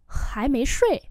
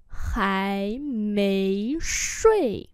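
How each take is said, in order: First: Said in the usual way. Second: Three stretched syllables; slow demonstration. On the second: Shown as a demonstration. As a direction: say it slowly for learners. Teacher repeats phrase slowly.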